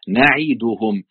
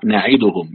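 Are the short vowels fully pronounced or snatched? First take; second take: full; snatched. First: Each letter gets its full vowel separately. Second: The short vowels are snatched and rushed together. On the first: The speaker calls it right. "لا نعيدهم" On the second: The speaker calls it wrong. "ما قلش نعيدهم"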